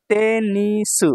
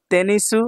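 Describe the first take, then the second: First: তেনিসু slow, each syllable held. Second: Said in the usual way. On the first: Shown as a demonstration. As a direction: stretch তেনিসু into three beats. Teacher sounds out new word.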